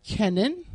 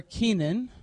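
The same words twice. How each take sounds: First: Kenan said as KEN-un; short-e pronunciation. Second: Kenan said as KEE-nun; long-e pronunciation. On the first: Teacher offering one reading of a Hebrew name, Kenan as KEN-un. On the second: Teacher offering the other reading of a Hebrew name, Kenan as KEE-nun. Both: Shown as a demonstration. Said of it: "depending on how you say it".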